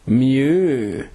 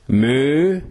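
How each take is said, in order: First: It is said in a posh Edinburgh accent. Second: It is said in a broad Glasgow accent. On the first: "snobby, posh cows from Edinburgh say mu" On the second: "Glasgow cows say moo"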